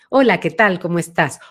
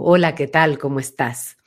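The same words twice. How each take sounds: First: The voice has a medium, central timbre. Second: The voice is deep, resonating far back.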